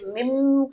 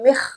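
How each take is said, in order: First: The final consonant is an m sound. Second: The final consonant merges into a kh sound. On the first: "मीम की आवाज़ में भी नहीं बदलेंगे" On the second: "यहाँ पर इदगाम भी नहीं करेंगे"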